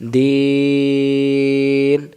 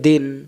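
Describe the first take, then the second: First: The vowel is stretched out long. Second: The vowel is short, not stretched. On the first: The speaker calls it right. "এবার তিন অক্ষর আদায় হলো" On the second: The speaker calls it wrong. "এখানে টান না দিলে উচ্চারণটা কি হবে? আমি যদি বলি দিন"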